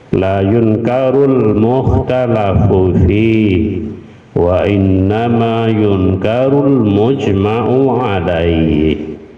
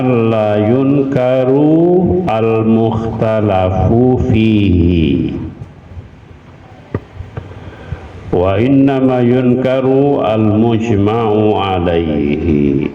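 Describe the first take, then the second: First: The sentence is read fast, words linked together. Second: The sentence is read slowly, word by word.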